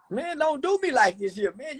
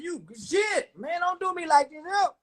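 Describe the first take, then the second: First: Said in the usual way. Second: Mock pleading shout. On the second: Streamer begging smart viewers to leave him alone, mock shouted plea. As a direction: yell it like a hammed-up complaint.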